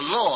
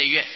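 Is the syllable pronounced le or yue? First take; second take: le; yue. First: The syllable is pronounced le. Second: The syllable is pronounced yue. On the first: It refers to happiness. The speaker calls it wrong. "不要念作乐啊、这不是快乐的乐" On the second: It refers to music. The speaker calls it right. "这是月音乐的月"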